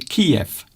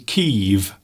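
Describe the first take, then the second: First: The name is said as two syllables, KEE-ev. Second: The name is said as one syllable, keev. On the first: This is the older English name for the city. "we used to say Kiev" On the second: This is the name used now. "now, of course, they say Kyiv"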